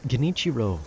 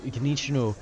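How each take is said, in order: Both takes have the same delivery.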